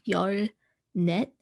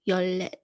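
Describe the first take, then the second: First: The second syllable starts with an n sound. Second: The second syllable starts with an l sound. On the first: The speaker calls it wrong. "it's not 열 net" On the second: The speaker calls it right. "it's 열렛"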